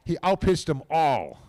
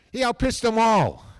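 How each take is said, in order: First: Said in the usual way. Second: Emphatic praise. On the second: Real, not acted. Praising the little lefty.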